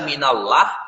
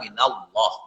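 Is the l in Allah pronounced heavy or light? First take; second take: light; heavy. First: The l in Allah is light and thin. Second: The l in Allah is heavy and thick. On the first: The speaker calls it wrong. "Kenapa tidak tidak dibaca minallah? Karena bukan itu kaidah tajwidnya" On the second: The speaker calls it right. "Kaidahnya adalah minallah, ... nah itu hukumnya tafkhim"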